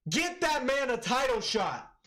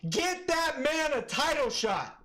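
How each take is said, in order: First: Excited call. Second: Higher, slowed, stretched hype call; more hyped repeat. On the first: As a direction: demand it fired up. Hyped after the knockout. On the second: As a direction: drag it out, even more fired up. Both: Real, not acted.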